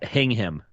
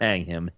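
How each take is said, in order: First: The first syllable sounds like 'hing'. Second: The first syllable sounds like 'hang'. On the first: The speaker calls it right. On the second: The speaker calls it wrong. "not hang him"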